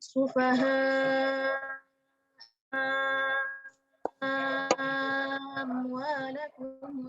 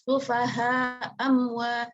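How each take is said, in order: First: The second hamzah becomes a long six-count vowel. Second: The first hamzah is dropped, with a short vowel. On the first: "hamzah yang pertamanya panjang, hamzah kedua hilang" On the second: "همزة الأولى مع القصر ... jadi hamzah pertama hilang"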